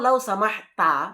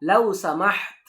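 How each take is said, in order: First: The last word ends with a final vowel. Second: The last word ends on a consonant. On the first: This is the full form of the phrase. "সঠিক উচ্চারণ হলো লাউ সামাহতা" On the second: This is the form used when stopping at a sentence end. "বাক্যের শেষে গিয়ে তারা ওয়াকফ করে, তারা থেমে যায়। এই জন্য এভাবে উচ্চারণ করতে হয়"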